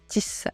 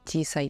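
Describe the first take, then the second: First: A short catch makes the word sound bouncy. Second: The word flows smoothly with no catch. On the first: "間に小さい「つ」を入れて、なんか跳ねてるみたいな、スタッカートみたいな感じで" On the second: "普通に"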